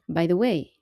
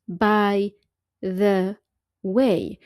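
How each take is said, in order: First: The words run together as one sound. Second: Each word is said separately with breaks. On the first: The speaker calls it right. "you say it like one single sound" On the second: The speaker calls it wrong. "You don't say by the way"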